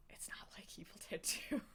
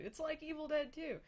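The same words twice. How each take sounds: First: Conspiratorial whisper under the breath; whispered aside. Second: High, loud mock sales pitch; mock hype. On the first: Acted. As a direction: let it slip as a secret aside. Whispered aside after the hyped pitch. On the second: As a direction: oversell it like an eager filmmaker. Hyped pitch, then whispered denial.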